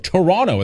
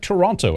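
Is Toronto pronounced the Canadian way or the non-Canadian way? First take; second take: Canadian; non-Canadian. First: Toronto is pronounced the Canadian way. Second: Toronto is pronounced the non-Canadian way.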